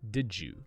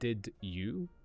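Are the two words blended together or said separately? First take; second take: blended; separate. First: The d and y blend into one j sound. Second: The d and y are said as separate sounds. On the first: The speaker calls it right. "but did you" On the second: The speaker calls it wrong. "People don't say did you"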